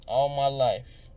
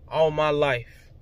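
First: Slow, drawn-out repeat. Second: Said in the usual way. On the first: Real, not acted. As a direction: stretch "All my life" out slowly, each word weighted. Repeats phrase, slower and softer.

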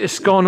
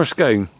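First: Short, open o in "scone", like "skon". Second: Long gliding o in "scone", like "skohn". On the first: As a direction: say "scone" to rhyme with gone. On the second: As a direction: say "scone" to rhyme with bone. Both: Shown as a demonstration. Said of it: "is it a scone or a scone".

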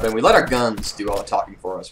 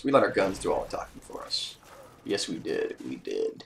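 First: Said in the usual way. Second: Low, soft dramatic aside; mock tough mutter. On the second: Shown as a demonstration. Bragging to viewers about the win, low dramatic aside. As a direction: drop it low like a movie tagline.

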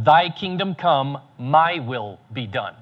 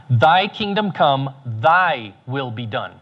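First: Slow, with MY set apart for contrast; stress on MY. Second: Slow, weighty THY each time; stress on THY. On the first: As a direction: lean on MY as the swapped-in word. Wrong version, set against thy will. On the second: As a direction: lean on THY in both halves, slowly. Contrasts thy will with my will. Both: Shown as a demonstration.

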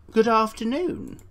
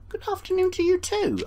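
First: Said in the usual way. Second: Squeaky, much higher put-on voice; polite visitor returning the greeting in a high voice; high character voice. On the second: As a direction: answer back in a chirpy visitor voice.

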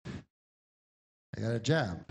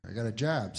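First: Slow insistent repeat. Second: Said in the usual way. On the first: Retold or imitated. Drifter repeating to the policeman.

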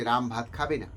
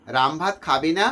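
First: Ram ভাত খাবে না said flatly, falling on না; statement tune, falling at the end; plain statement. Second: Ram ভাত খাবে না with না rising like a question; rising question intonation on না; question tune. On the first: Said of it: "তথ্য দেওয়া হচ্ছে". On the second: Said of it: "এটা প্রশ্ন এসে যাচ্ছে". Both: Shown as a demonstration.

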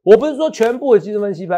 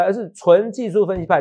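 First: 说 pushed up high and held; stress on 说. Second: 纯技术 stressed, falling tune; weight 纯技术 to finish the contrast. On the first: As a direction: lean on 说, not all analysts. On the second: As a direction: stress 纯 and 术 to answer the line before. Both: Real, not acted.

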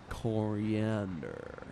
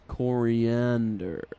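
First: Coriander dragged out slow and low, falling; drawn-out coriander. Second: Coriander stretched slow and low, falling; drawn-out coriander. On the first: Plotting trader naming the secret ingredient, slow and low. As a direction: linger on coriander, savouring it. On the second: Trader musing on the plan, slow drawn coriander. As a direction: drag out coriander knowingly. Repeats the ingredient. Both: Acted.

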